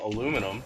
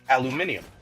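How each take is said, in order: First: It is said with the American pronunciation. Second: It is said with the non-American pronunciation. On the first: "I'm an American. Um, and that's how we pronounce it" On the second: "how most of the world probably pronounces it"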